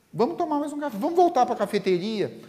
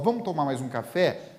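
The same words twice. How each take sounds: First: High, eager coaxing voice; pleading friend. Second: Said in the usual way. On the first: Acted. Friend begging Divaldo to stay for coffee, high and coaxing. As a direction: coax him into one more coffee, much higher.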